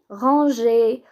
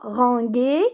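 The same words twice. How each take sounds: First: The g is soft, like the s in 'measure'. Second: The g is hard, as in 'go'. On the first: The speaker calls it right. "mais ranger" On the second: The speaker calls it wrong. "on dit pas ranger"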